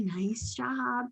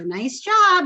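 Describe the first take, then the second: First: Calm praise. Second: "Nice job" much higher and louder, gushing; overexcited praise. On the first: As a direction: keep "nice job" gentle and quiet. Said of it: "calm, encouraging praise". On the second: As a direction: gush "Nice job" like a thrilled owner. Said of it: "I don't go above that because if I go". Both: Shown as a demonstration.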